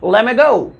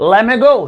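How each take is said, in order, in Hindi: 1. दोनों शब्द मिलकर एक छोटा शब्द बन जाते हैं। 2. दोनों शब्द मिलकर एक छोटा शब्द बन जाते हैं।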